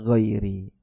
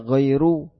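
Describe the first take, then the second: First: The word ends with an i vowel. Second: The word ends with a u vowel. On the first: The speaker calls it right. "tapi dibaca ghairi" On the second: The speaker calls it wrong. "Dia tidak dibaca ghairu"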